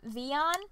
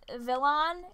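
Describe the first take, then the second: First: The name is said without an L sound. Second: The name is said with an L sound. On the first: The speaker calls it right. "instead of Vion" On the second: The speaker calls it wrong. "I always pronounced it as Vilon"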